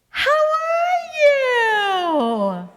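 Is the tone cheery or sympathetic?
cheery. It is said brightly, with a smiling pitch.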